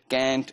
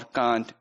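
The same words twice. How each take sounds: First: It is said with an American accent. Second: It is said with a British accent. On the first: "in American English" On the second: "in British English"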